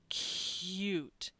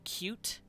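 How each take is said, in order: First: The word is said slowly and drawn out. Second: The word is said quickly at normal pace. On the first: "if you slow down" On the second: "the way I pronounced it and the quickness at which I did it"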